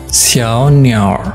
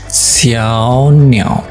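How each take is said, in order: First: The last word ends with an added r sound. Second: The last word ends without an r sound. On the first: "kalau kita mau tambahkan er atau di erhua, maka jadi" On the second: "kita kalau mau ngomong burung kecil yaitu xiao niao"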